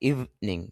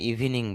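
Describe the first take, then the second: First: The first vowel is drawn out long. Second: The first vowel is short. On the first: The speaker calls it right. "শুদ্ধ হবে ইভিনিং ... একটু টান হবে" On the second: The speaker calls it wrong. "যদি আপনার ইভিনিং বলেন"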